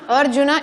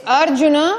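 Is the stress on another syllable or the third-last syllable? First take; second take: third-last; third-last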